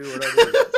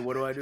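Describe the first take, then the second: First: Much higher, louder panicked plea, laughing; mock panic. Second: Said in the usual way. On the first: Calling upstairs for help in line, a laughing high panic.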